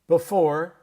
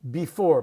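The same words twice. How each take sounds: First: The first vowel is reduced and quick. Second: The first vowel is said fully and carefully. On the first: The speaker calls it right. "I spelled it the way we would say it" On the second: The speaker calls it wrong. "no one says before"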